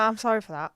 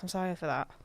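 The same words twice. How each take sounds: First: The apology is said clearly and audibly. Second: The apology is mumbled quietly and unclearly. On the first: The apology is repeated because it was not heard. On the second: The apology is given reluctantly.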